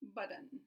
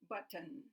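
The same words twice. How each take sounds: First: The middle T is a quick tap. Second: The middle T is a fully released T. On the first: "Or they might try a tap" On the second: "they'll say button"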